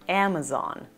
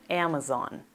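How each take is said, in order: The two takes are said the same way.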